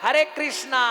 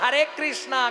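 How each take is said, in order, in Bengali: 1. Krishna শব্দটি একটি দীর্ঘ 'a' ধ্বনি দিয়ে শেষ হয়। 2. Krishna শব্দটি একটি দীর্ঘ 'a' ধ্বনি দিয়ে শেষ হয়।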